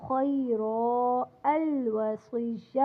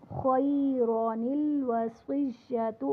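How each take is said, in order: First: خیرا ends on a long a with no nun before الوصیۃ; pausing reading. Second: خیران الوصیۃ recited slowly with the nun carried into الوصیۃ; joined reading. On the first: Teacher showing students the pause at the verse end, slow recitation. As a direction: stop on خیرا, then start الوصیۃ cleanly. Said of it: "اور جب وقف کریں گے خیرا الوصیۃ". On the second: Teacher showing students the joined reading, slow recitation. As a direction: link خیران to الوصیۃ through a sounded nun. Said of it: "جب ہم ملا کر پڑھیں گے تو خیران الوصیۃ". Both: Shown as a demonstration.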